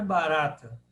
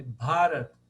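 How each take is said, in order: First: Barata with the stress on the middle RA; barata, short BA and stressed second syllable; wrong stress shown. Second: Bharata with a long, stressed BHA; long first syllable. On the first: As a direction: say barata like the Portuguese word, stressing RA. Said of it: "Não é barata". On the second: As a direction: lean on the aspirated BHA of Bharata, low voice. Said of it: "O terceiro A de trás pra frente é o longo". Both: Shown as a demonstration.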